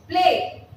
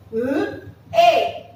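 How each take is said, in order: First: Said in the usual way. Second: "P-A" as p, l, ay with pauses; "P-A" in separated sounds, not letter names; sounded out. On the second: Shown as a demonstration. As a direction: sound out "P-A" by phonics for play. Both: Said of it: "how we are going to pronounce it".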